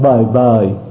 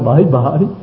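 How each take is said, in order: First: Each syllable has a low falling tone. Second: Each syllable has a dipping-rising tone. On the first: The speaker calls it right. "rớt bời bời" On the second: The speaker calls it wrong. "chứ không phải bởi bởi"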